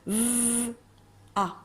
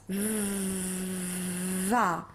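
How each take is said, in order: First: The two sounds are split by a stop. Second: The v flows straight into the vowel. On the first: The speaker calls it wrong. "je ne veux pas qu'elle lise v, a. Ils se sont arrêtés" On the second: The speaker calls it right. "Il faut que ça fasse v, va"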